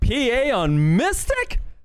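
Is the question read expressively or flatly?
expressively. It is read with strong, expressive inflection.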